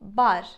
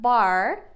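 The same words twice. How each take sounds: First: The r is a soft, light Turkish r. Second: The r is a strong American-style r. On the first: The speaker calls it right. "In Turkish, we would pronounce it like that" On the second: The speaker calls it wrong. "we don't say bar with the American accent"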